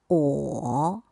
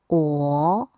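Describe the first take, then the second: First: The syllable is said with the third tone. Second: The syllable is said with the second tone.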